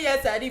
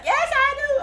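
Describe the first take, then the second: First: Said in the usual way. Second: Very high, loud mock wedding vow; loud groom's vow. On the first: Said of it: "now say". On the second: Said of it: "Be like".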